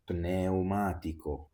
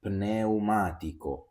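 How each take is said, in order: First: Pneumatico said as neumatico, no P; learner-style Pneumatico without the P; P dropped. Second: Pneumatico with the P said before the N; teacher stressing the P in Pneumatico; clear P. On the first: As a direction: leave out the P in Pneumatico. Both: Shown as a demonstration. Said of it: "Let's now read these words".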